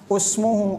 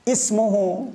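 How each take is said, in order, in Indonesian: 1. Kata ini diawali dengan vokal 'u'. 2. Kata ini diawali dengan vokal 'i'. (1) "bukan usmuhu" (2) "hamzah wasol dibaca kasrah"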